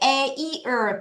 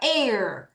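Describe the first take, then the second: First: The word is said at a normal pace. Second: The word is said quickly. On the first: "원래는" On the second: "빨리 할게요"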